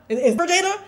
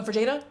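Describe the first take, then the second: First: "Is, is for Jada?" pitched high and louder, rising hard on "Jada"; high insistent question. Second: Said in the usual way. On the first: Retold or imitated. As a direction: call out "Jada" up high, a little louder and pressing. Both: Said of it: "Each person, I'm going".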